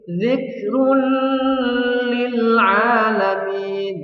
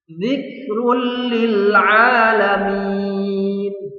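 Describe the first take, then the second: First: A nasal hum is held before the l. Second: It moves straight on without a nasal hum. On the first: The speaker calls it wrong. "Tidak boleh seperti ini" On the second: The speaker calls it right. "Harus lanjut tanpa mendengung"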